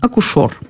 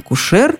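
First: The final stressed vowel sounds like 'o'. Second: The final stressed vowel sounds like 'e'. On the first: This is an old-fashioned form. "допустимый, хотя и устаревающий вариант" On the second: This is the standard modern form. "Основной вариант"

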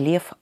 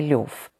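First: The vowel after the L sounds like 'e'. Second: The vowel after the L sounds like 'yo'. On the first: "Толстой называл себя не Лев" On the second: "а Лев"

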